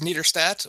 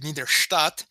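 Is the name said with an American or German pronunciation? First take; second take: American; German. First: It is said with an American pronunciation. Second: It is said with a German pronunciation.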